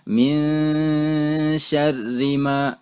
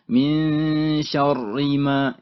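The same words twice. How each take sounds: First: The r in syarri sounds thin and light. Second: The r in syarri sounds thick and heavy. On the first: The speaker calls it right. "maka dia dibaca tipis. Seperti min syarri ma" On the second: The speaker calls it wrong. "bukan min syarri ma, itu salah"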